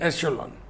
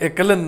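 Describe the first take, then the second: First: The middle consonant is a sh sound. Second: The middle consonant is a k sound. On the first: The speaker calls it right. "ये है एशेलॉन" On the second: The speaker calls it wrong. "ये एकेलन नहीं है"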